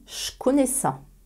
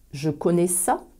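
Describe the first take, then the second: First: The word je sounds like che. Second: The word je keeps its voiced j sound.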